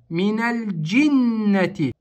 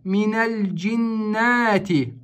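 First: The vowels are kept short and unstretched. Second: A vowel in the word is drawn out. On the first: The speaker calls it right. "нужно сделать ударение на букву джим" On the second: The speaker calls it wrong. "вторая ошибка, которая допускается в этом слове, это удлинение"

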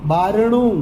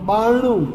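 First: The r is pronounced before the n. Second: The r drops and the n is doubled.

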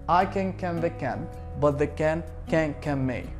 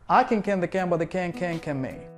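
First: The phrase is said at a medium pace. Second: The phrase is said at a fast pace. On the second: "Faster a little bit"

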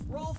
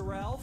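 First: The name is said with an 'o' and 'lf' sound. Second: The name is said with an 'al' and 'lf' sound.

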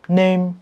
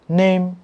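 The two takes are said the same way.

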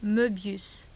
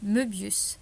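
First: The first vowel is open and wide. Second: The first vowel is closed and narrow. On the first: The speaker calls it wrong. "я думала, що цей звук відкритий" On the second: The speaker calls it right. "він закритий, його читають вужче"

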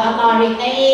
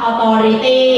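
Both takes have the same delivery.

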